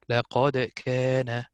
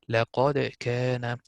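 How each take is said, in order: First: The d sound is held with a slight echo. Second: The d sound is held with a slight echo.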